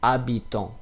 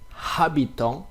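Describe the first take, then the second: First: The word starts with no h sound. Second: The word starts with an audible h sound. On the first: The speaker calls it right. "but it will be habitant" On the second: The speaker calls it wrong. "It will be not habitant"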